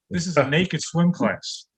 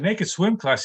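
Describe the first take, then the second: First: Said in the usual way. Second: Higher-pitched incredulous echo; acted student's baffled query; mock disbelief. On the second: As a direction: repeat it back as a startled question. Student questions teacher in disbelief.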